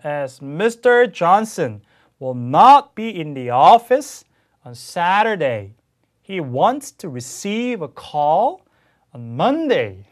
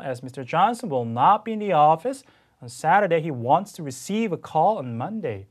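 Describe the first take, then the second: First: Very slow and much louder, every content word stretched; hugely exaggerated stress. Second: Slow, content words stressed but smoother; still exaggerated stress. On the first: Teacher reads to students with stress exaggerated to the extreme. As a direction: overdo the sentence stress on purpose for students. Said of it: "제가 좀 과장을 해서 한번 읽어보겠습니다". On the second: Teacher rereads after the native clip, still exaggerating the stress. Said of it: "저도 조금 더 아직도 과장을 하고 있습니다만". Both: Shown as a demonstration.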